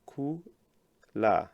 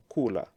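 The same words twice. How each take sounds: First: "ku, la" as two separate syllables with a pause between; split into syllables. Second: Said in the usual way. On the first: Shown as a demonstration. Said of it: "split this verb into two". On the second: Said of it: "If you split this verb".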